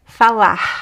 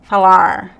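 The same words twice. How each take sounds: First: The final R sounds like a breathy H. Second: The final R is a curled American-style R. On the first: "So it could be here, h" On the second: "the like American R"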